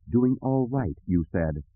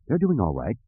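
First: Dry, mocking echo of his words; sarcastic. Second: Said in the usual way. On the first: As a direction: throw his words back, needling.

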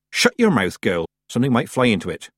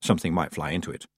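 First: Put-on brisk order from an old witch, pitched up at first; a quick, no-nonsense telling-off; brisk scolding. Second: Low, soft aside at a quick pace; subdued echo. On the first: Granny tells the girl to shut her mouth, brisk scolding. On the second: Tiffany shuts her mouth on Granny's warning, subdued echo. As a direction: drop it under your breath as an afterthought. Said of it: "Tiffany shut her mouth". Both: A narrator's reading.

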